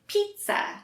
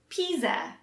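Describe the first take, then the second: First: The middle sound is a TS sound. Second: The middle sound is a Z sound. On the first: The speaker calls it right. "we don't pronounce the Z sound at all. It's more of a T and S sound" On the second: The speaker calls it wrong. "If you say it like it's spelled, you might say pizza. But that's incorrect"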